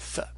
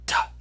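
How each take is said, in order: First: An unvoiced th sound, as in author. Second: A t sound followed by a puff of breath. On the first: This is the later conventional pronunciation. "pronounce it like the English unvoiced th" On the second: This is the original ancient pronunciation. "theta is in origin the aspirated form of the letter tau"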